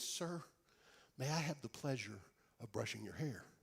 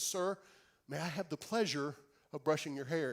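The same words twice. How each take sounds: First: It is said very quietly. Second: It is said a little louder.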